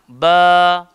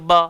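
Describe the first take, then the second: First: The vowel is held long. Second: The vowel is cut short. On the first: The speaker calls it right. "kena panjang" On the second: The speaker calls it wrong. "tak boleh baca ba, salah"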